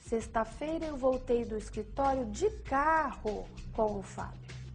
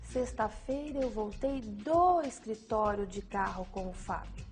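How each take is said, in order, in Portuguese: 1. A ênfase recai sobre "de carro". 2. A ênfase recai sobre "do escritório". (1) "A ênfase no de carro indica o modo como a pessoa voltou do escritório" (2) "A ênfase no do escritório indica o local da ação praticada"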